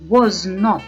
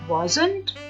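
First: It is said as two separate full words. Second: It is said as one contracted word.

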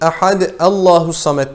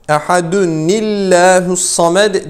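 First: Ehad stops with a break before Allahu. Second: Ehad links into Allahu with an n sound. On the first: The speaker calls it wrong. "ehad Allahu samet değil" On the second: The speaker calls it right. "Buraya da bir tane gizli nun koyuyoruz"

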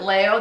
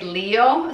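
First: The name is said with a Spanish pronunciation. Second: The name is said with a non-Spanish pronunciation. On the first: "I pronounce it Leo the Spanish way" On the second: "my daughters say Leo"

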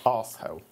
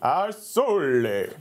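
First: It is said in the speaker's ordinary accent. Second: It is said in a put-on Italian accent.

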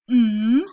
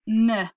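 First: The sound is said softly. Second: The sound is said hard. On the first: The speaker calls it right. "use what we call soft sounds" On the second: The speaker calls it wrong.

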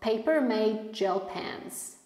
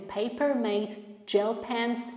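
First: The t before 'gel' is not heard. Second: The t before 'gel' is clearly heard. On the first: "Zobaczcie tego ty w słówku made. Nie słyszymy" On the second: "jak najbardziej będzie też super"

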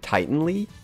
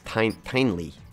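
First: The name begins like the word Titan. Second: The name does not begin like Titan. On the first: The speaker calls it wrong. "I was calling it, I think, Tianlei, because I want to think of it as a Titan" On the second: The speaker calls it right. "but it's Tianlei, I think, is how you say it"

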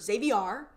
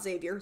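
First: The name rhymes with caviar. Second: The name does not rhyme with caviar. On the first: The speaker calls it right. "like caviar" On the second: The speaker calls it wrong. "not Xavier"

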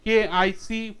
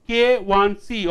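First: The middle character is said as the letter I. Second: The middle character is said as the number one. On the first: The speaker calls it wrong. "often the students pronounce it KIC, which is wrong" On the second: The speaker calls it right. "K1C stands for critical stress intensity factor"

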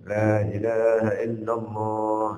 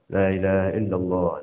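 First: It is said slowly and clearly. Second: It is said fast.

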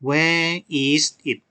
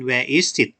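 First: The phrase is said slowly, word by word. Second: The phrase is said fast, words run together. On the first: "ลองอ่านตามครูนะครับ" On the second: "ถ้าเราอ่านเร็วๆจะเป็น"

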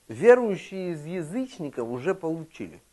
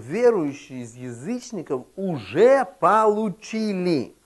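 First: It is spoken at a normal pace. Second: It is spoken slowly.

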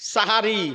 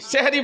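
First: The first vowel is an open 'a' sound. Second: The first vowel is an 'e' sound. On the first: The speaker calls it right. "ভোর রাতের খাবারটাকে আমরা বলি সাহারি।" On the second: The speaker calls it wrong. "সেহারি বলবেন না"

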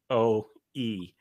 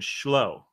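First: The name begins with a k sound. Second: The name begins with a sh sound. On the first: The speaker calls it right. "actually Chloe" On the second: The speaker calls it wrong. "I said Shlo"

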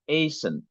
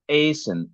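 First: The final syllable has a weak, reduced vowel. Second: The same.

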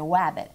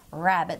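First: The word begins with a W sound. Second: The word begins with an R sound. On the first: The speaker calls it wrong. "they're going to say wabbit every single time" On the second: The speaker calls it right. "instead of saying rabbit"

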